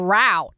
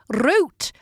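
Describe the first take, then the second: First: The word is said the American way. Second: The word is said a non-American way. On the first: This is how the people around the speaker say it. "everyone's on about the route" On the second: This is the speaker's own habitual way of saying it. "saying things like"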